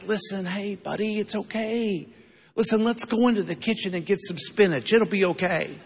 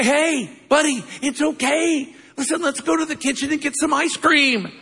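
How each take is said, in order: First: Put-on hushed, gentle coaxing to a child; softly calm a scared little boy; a quiet, tender grandpa's hush; soft soothing voice. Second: Much higher, bright promise of ice cream; excited grandpa. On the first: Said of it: "Never happens". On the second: Retold or imitated. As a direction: sell the treat with eager excitement. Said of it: "That's what I say".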